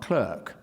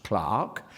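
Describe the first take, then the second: First: CLERK with an er vowel; rejected pronunciation. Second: CLARK with a long open ah; British pronunciation. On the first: Lecturer gives the rejected form, clerk with an er sound. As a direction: say clerk as spelt, rhyming with work. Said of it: "clerk is pronounced clark, uh, not clerk". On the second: Lecturer shows how clerk is pronounced, British long ah. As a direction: say clark to rhyme with dark. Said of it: "clerk is pronounced clark". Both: Shown as a demonstration.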